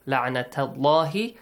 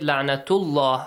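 First: The vowel after the t is a. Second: The vowel after the t is u. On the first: The speaker calls it right. "You should read it with fatha la'nata" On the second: The speaker calls it wrong. "Do not read it"

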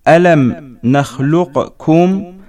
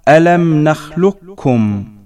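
First: The q sound is pronounced before the k. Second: The q sound merges into a doubled k. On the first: "نحو" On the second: "تصبح"

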